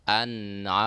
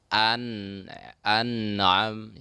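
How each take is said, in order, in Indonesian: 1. Bunyi n mengalir halus tanpa gema. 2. Bunyi n diakhiri dengan gema yang memantul. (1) "bacaannya an'am" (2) "Kadang nun seolah-olah menjadi berqalqalah"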